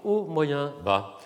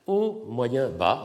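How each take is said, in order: First: Sung, haut, moyen, bas sur trois hauteurs; sung tone levels. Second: Tone levels. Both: Shown as a demonstration. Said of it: "trois hauteurs tonales".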